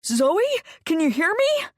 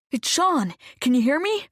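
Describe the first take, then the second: First: High, loud squeal of joy; squealing excitement. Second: Loud, urgent calling to wake her. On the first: Sean squeals as Zoe opens her eyes, high and thrilled. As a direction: squeal her name in delight. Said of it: "Sean let out a squeal". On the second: Sean calls loudly to his unconscious friend, urgent. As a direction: call loudly, trying to get through. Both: Acted.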